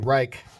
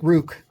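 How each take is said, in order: First: The name rhymes with 'bike'. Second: The name rhymes with 'book'. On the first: This is how other people say it. "some people say Reich" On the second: This is the speaker's preferred way. "But I like Rook"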